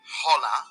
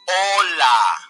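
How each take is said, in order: First: The h at the start is sounded. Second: The h at the start is silent. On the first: The speaker calls it wrong. "you shouldn't say hola" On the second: The speaker calls it right. "Correct pronunciation is hola"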